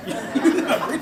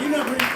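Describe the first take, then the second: First: Slow, laughing put-down; amused, drawn-out scoff; laughing mockery. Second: "not" punched; firm verdict, "not" stressed. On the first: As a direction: laugh the words out slowly as a dismissal. Mocking the Windrush generation. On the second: Retold or imitated. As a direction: hit "not" in "You're not British". Repeats the verdict.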